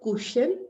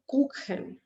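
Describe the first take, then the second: First: The ch is said as a soft sh. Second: The ch is said as a throaty kh. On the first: The speaker calls it wrong. "this is not Kuchen" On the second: The speaker calls it right. "with A or O or U, it's going to take the kh sound"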